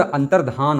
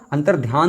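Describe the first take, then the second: First: अंतर्धान with no 'y' glide, ending -dhaan; correct pronunciation. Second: अंतर्ध्यान with a 'y' glide, ending -dhyaan; wrong pronunciation. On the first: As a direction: say अंतर्धान slowly, with a clean धा. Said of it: "अंतर्धान होता है". (अंतर्धान में साफ़ 'धा' बोलकर) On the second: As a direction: say अंतर्ध्यान with ध्या in place of धा. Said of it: "अंतर्ध्यान नहीं होता". (अंतर्ध्यान में 'ध्या' बोलकर) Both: Shown as a demonstration.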